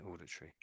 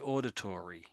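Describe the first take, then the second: First: It is said in a British accent. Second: It is said in an American accent. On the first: "that's the way the British say it" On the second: "the Americans say auditory"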